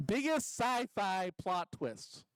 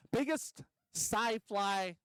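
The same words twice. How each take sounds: First: "biggest sci-fi plot twists" read slowly like a headline; announced title. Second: "Biggest" drawn out slowly; stress on biggest. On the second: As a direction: lean on "Biggest sci-fi" like a title. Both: Shown as a demonstration.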